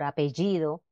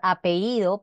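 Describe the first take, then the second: First: The palatal consonant before i is pronounced. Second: The palatal consonant before i is dropped. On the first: The speaker calls it right. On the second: The speaker calls it wrong.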